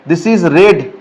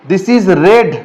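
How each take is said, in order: The two takes are said the same way.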